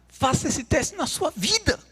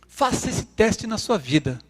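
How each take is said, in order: First: It is said in the preacher's imitated accent. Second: It is said in the speaker's plain voice.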